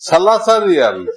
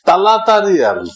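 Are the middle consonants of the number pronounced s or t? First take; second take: s; t. First: The number is said with s sounds. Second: The number is said with t sounds. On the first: "তিন রিয়াল বলতে হবে সালাসা রিয়াল" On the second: "সালাসা রিয়াল বলবো না, তালাতা রিয়াল"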